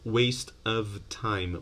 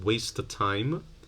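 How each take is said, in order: First: Every sound in the phrase is said fully. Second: A sound is dropped as the words link.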